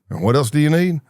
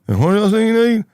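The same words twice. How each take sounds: First: It is said in a normal voice. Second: It is said high-pitched through the nose.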